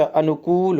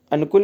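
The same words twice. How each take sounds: First: अनुकूल with a drawn-out kooool; correct long oo. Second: अनुकूल with a short, quick kul; wrong short u. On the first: Teacher correcting the spelling, अनुकूल with long oo. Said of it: "अनुकूल होता है". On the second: Teacher rejecting the misspelling, अनुकूल with short u. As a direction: clip the last vowel of अनुकूल short. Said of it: "अनुकूल नहीं होता". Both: Shown as a demonstration.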